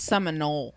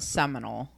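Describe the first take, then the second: First: It is said like the tribe name Seminole. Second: It is said like the word seminal. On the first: The speaker calls it right. "It's Seminole" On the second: The speaker calls it wrong. "It's not Seminole fluid"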